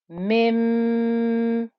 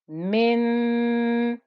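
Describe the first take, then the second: First: The held nasal sounds like an m. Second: The held nasal sounds like an n. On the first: The speaker calls it right. "bring the lips together as if we're saying a meme" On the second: The speaker calls it wrong. "you can hear the kind of noon quality to that ghunna"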